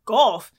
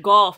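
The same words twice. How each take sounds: First: GOLF echoed back as a disbelieving question; puzzled echo. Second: GOLF as a firm, final answer; deadpan answer. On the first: Strangers repeating her sport back, puzzled echo. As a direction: query GOLF as if it makes no sense. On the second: Telling nosy strangers her sport, deadpan answer. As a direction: say GOLF as a plain statement. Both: Retold or imitated.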